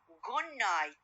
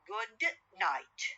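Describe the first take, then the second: First: Good ends with a nasal N sound. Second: Good ends with a clear D sound. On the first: "pronounce them rapidly ... From D sound into N sound, nasal" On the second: "the words good night"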